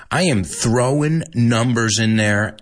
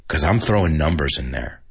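First: "am" drawn out and stressed. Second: Said in the usual way. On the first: Shown as a demonstration. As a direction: insist on "am". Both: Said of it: "That's right".

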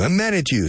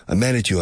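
First: High-pitched example line; raised pitch. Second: Said in the usual way. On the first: Shown as a demonstration. Teacher modelling the phrase, high-pitched. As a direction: lift it up high to show it.

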